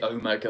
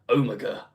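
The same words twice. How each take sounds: First: It is said with an American pronunciation. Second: It is said with a non-American pronunciation. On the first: The speaker calls it wrong. "it's too Americanized to say Omega" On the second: The speaker calls it right. "it's supposed to be Omega"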